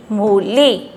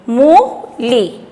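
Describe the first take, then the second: First: "मूली" joined up, both vowels held; blended with stress. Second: "मूली" slowly split, long rising "मू", then "ली"; sounding out. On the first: Teacher blending the word for children, stressed. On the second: Teacher drilling children, sounded out. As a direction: stretch "मूली" in two pieces. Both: Shown as a demonstration. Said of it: "जोर दे के बोलना".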